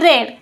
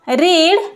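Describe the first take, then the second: First: The word has a short 'e' vowel. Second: The word has a long 'ee' vowel. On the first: It is the past form of the verb. "Spelling same असते पण याचा उच्चार वेगळा करतात" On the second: It is the present form of the verb. "Spelling same असते पण याचा उच्चार वेगळा करतात"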